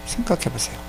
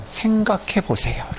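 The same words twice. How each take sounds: First: Soft repeat. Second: Slow urging. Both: Shown as a demonstration.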